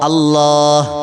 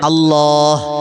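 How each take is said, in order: The two takes are said the same way.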